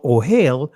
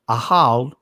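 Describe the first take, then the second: First: The word begins with an 'oh' vowel. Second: The word begins with an 'ah' vowel. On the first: This is the form commonly given. "you see ohel" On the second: This is how it was said in ancient times. "the actual pronunciation in ancient is ahal"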